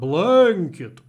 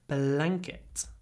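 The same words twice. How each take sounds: First: The vowel and ng sound are drawn out long. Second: The vowel and ng sound are clipped short. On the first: The speaker calls it wrong. "It's not blanket" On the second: The speaker calls it right. "it gets clipped"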